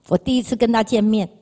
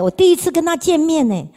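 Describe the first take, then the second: First: Said in the usual way. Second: 第一次 stressed, higher than the first take; 我第一次跟她见面欸 said higher, stressing 第; emphatic repeat. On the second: Real, not acted. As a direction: insist it was the very first meeting. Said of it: "我不认识她欸".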